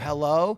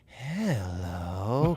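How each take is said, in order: First: It is said in a normal voice. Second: It is said in a creepy voice.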